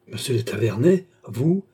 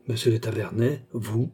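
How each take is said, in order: First: Startled question lifting on "vous"; surprised exclamation. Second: Subdued, mildly grumpy question; rather sullen. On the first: Charny recognising his rival at the gate, surprised exclamation. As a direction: exclaim it in mild astonishment. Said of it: "s'écria Charny". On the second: Charny finding a rival at the gate, rather sullen. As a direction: say it with understated displeasure. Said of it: "avec un accent assez maussade". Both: A narrator's reading.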